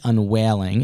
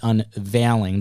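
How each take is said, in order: First: The V sound is dropped or weakened. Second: The V sound is clearly pronounced. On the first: The speaker calls it wrong. "it is not the unwailing" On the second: The speaker calls it right. "It's not a silent V"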